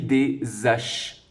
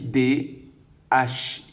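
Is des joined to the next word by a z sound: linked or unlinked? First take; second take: linked; unlinked. First: A z sound links des to the next word. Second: No z sound links des to the next word. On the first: The speaker calls it wrong. "Est-ce que je dis des haches? Eh non" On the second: The speaker calls it right. "Il n'y a pas de liaison"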